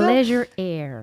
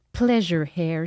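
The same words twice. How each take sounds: First: "Pleasure hair" said as "pleasure air"; slow corrected reading, silent H in "hair"; H dropped. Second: "Pleasure hair" with an audible H; slow English reading, H sounded in "hair"; H pronounced. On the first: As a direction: say "hair" without the H, slowly. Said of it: "parce qu'il y a pas de H". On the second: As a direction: say "hair" with a breathed H, in French-accented English. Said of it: "vous allez voir mon bel accent anglais". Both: Shown as a demonstration.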